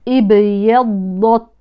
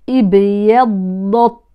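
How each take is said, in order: Both takes have the same delivery.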